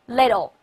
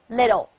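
The two takes are said the same way.

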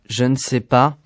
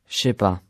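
First: Every syllable is pronounced in full. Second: Sounds are dropped and run together.

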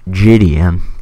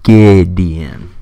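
First: The name begins with a soft J sound. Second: The name begins with a hard G sound. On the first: The speaker calls it wrong. "Not Gideon" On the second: The speaker calls it right. "Look at the name Gideon. G-I. And then a consonant"

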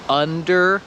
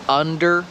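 Both takes have the same delivery.

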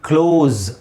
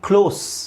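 First: The word ends with a buzzing z sound. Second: The word ends with a soft s sound. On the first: It means to shut. "ಮುಚ್ಚುವುದಕ್ಕೆ ಕ್ಲೋಸ್ ಝೆಡ್ pronounce ಆಗಬೇಕಲ್ಲಿ" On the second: It means near. "ಯಾವುದು? ಹತ್ತಿರ"

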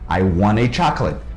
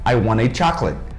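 First: Want to is blended into one quick word. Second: Want to is blended into one quick word.

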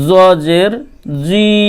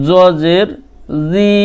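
No difference in how they are said.

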